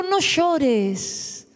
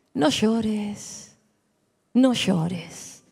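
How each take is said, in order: First: Said in the usual way. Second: Much lower, softer hush to a weeping widow; Jesus softly telling the widow not to cry; tender comfort. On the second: Acted. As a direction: soothe her gently, almost hushed.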